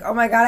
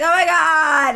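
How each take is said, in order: First: Said in the usual way. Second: Long, drawn-out campy exclamation; stretched-out mock delight; flamboyant gushing man. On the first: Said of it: "And I'm like". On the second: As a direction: imitate a gushing flamboyant stranger. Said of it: "he's, he's like".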